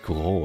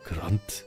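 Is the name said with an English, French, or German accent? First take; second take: French; German. First: The name is said with a French accent. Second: The name is said with a German accent. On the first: "Like in French it would be grand" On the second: "a German way of like grand, grand would be good"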